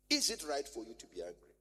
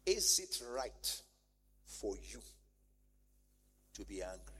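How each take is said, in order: First: Said in the usual way. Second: Gentle divine question. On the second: Acted. God asks Jonah gently.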